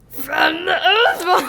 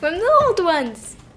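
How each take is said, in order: First: It is said in a gravelly voice. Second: It is said in a normal voice.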